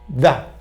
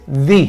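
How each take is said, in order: First: The word ends in a neutral schwa vowel. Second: The word ends in a vowel other than schwa. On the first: "Esa vocal se le conoce en inglés como schwa" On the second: "la otra forma en que se puede pronunciar"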